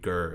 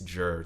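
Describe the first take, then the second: First: The syllable begins with a hard G sound. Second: The syllable begins with a J sound. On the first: The speaker calls it right. "G I R does not read Gur" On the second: The speaker calls it wrong. "it reads Jur to a lot of people"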